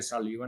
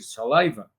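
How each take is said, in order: First: It is pronounced the way Spanish speakers say it. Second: It is pronounced the way English speakers say it. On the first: The speaker calls it wrong. "le habla de saliva, no le va a entender" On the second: The speaker calls it right. "Hay que decir saliva"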